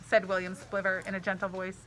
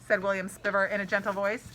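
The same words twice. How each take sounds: No difference in how they are said.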